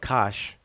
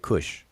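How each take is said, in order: First: The vowel sounds like the one in 'cash'. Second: The vowel sounds like the one in 'push'. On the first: This is how the ancient writing indicates it. "They call it Kash" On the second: This is how people usually say it today. "We say Kush"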